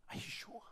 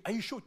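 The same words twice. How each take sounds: First: Hushed, whispered question; near-voiceless retold disbelief; stunned disbelief. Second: High, loud, frantic question; acted-out urgent, raised-voice question; desperate disbelief. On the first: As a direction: ask it under your breath, stunned. Stunned father questioning the doctor. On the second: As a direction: demand an answer, pleading. Father begging the doctor to recheck.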